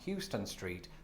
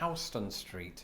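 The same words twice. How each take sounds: First: Houston is said like the Texas city's name. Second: Houston is said unlike the Texas city's name. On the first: The speaker calls it wrong. "pronounced not Houston Street" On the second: The speaker calls it right. "but Houston Street"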